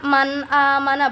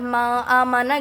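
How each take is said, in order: First: The n sound is pronounced clearly and distinctly. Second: The n sound is blurred into a nasal hum. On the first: The speaker calls it right. "cara baca itu jelas" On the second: The speaker calls it wrong. "bukan ma amana gitu, salah. Karena itu termasuknya nanti mendengung"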